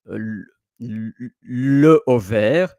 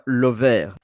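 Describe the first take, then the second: First: The article is said fully, separate from the noun. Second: The article is reduced and linked onto the noun. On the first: The speaker calls it wrong. "It's uh, incorrect, but I will understand you" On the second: The speaker calls it right. "L apostrophe. That for the, the link"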